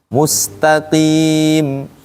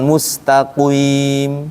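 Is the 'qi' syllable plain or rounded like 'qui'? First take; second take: plain; rounded. First: The 'qi' syllable has a plain 'i' sound. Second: The 'qi' syllable has a rounded 'ui' sound. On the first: The speaker calls it right. "Saat kasroh tarik" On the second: The speaker calls it wrong. "bukan mustaqim"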